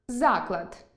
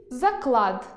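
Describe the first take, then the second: First: Заклад stressed on а, за́клад, slowly; stress on the first syllable. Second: Заклад stressed on the second а, закла́д, slowly; stress on the last syllable. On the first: Teacher reading за́клад, institution. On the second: Teacher reading закла́д, a bet. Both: Shown as a demonstration. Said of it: "Прочитайте пари слів".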